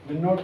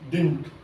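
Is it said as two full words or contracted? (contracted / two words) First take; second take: two words; contracted. First: It is said as two separate full words. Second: It is said as one contracted word.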